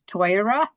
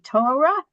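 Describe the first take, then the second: First: The first vowel is an 'oy' sound. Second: The first vowel is a plain 'oh' sound.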